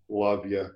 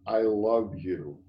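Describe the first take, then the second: First: It is said casually, as a throwaway. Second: It is said earnestly, with full meaning.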